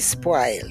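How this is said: The vowel is a broad, unrounded A sound. "we do not use the rounded vowels in Jamaica. They're all broad A vowels"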